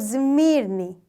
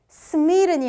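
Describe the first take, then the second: First: The first consonant is a z sound. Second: The first consonant is an s sound. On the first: The speaker calls it right. "스미르니 이렇게 됩니다" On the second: The speaker calls it wrong. "미가 뒤에 오기 때문에 스미르니 아니고"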